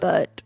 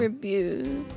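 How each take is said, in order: First: The final T is clearly pronounced. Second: The final T is silent, French style. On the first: The speaker calls it right. "You would still pronounce a T" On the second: The speaker calls it wrong. "only because French, but pronunciation"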